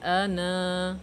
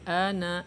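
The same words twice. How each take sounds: First: The final vowel is long, held before a stop. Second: The final vowel is short, running into the next word. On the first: The reader stops at this word. "dua harokah, alifnya tetap dibaca" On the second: The reading continues without stopping. "alifnya tidak dibaca"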